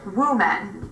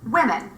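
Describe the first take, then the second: First: The first vowel is rounded, like in wood. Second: The first vowel is short, like in in. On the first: The speaker calls it wrong. "What I hear people say is woman. This is wrong" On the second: The speaker calls it right. "The word should be pronounced women"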